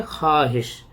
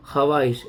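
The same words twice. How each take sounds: First: ख्वाहिश said khahish, with the vaav silent; correct reading. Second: ख्वाहिश sounded as khawahish, with the vaav pronounced; spelled-out reading. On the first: Teacher giving students the true reading. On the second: Teacher showing how the word looks written. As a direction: read ख्वाहिश letter by letter as khawahish. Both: Shown as a demonstration. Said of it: "लेकिन इसको क्या पढ़ेंगे".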